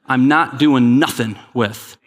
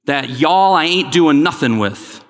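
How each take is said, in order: First: Said in the usual way. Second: Playful, slow Southern phrasing; lightly put-on Southern accent. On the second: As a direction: say it for Southern friends, a slow folksy Southern take. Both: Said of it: "that was for my Southern friends".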